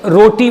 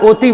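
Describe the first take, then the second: First: The word begins with a clear r sound. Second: The word begins with a vowel, r dropped. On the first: An adult says the word normally. "सही उच्चारण करेगा" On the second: A small child lisps the word. "वो तुतला के ओती बोलेगा"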